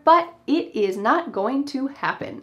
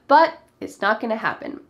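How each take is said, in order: First: Every word is said fully and separately. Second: The words are contracted and reduced together.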